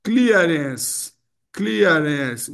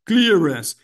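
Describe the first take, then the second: First: "clearance" said clia-ren-ce, extra final syllable; "clearance" with a final e sounded; wrong pronunciation. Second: "Clearance." in two syllables, clear-rance, no final vowel; "Clearance." louder, two syllables only. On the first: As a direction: give "clearance" the Brazilian extra vowel. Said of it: "A tendência dos controladores é falar clearance". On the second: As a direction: say "Clearance." as just two beats. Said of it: "Duas sílabas". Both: Shown as a demonstration.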